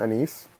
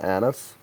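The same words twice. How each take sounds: First: "anise" with stress on the second syllable, rhyming with niece; anise as uh-NEECE. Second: "anise" with stress on the first syllable, short unstressed ending; anise as AN-iss. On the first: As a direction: say "anise" as uh-NEECE, long ee at the end. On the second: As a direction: say "anise" as AN-iss, open a at the start. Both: Shown as a demonstration. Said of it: "I think I'd pronounce it anise".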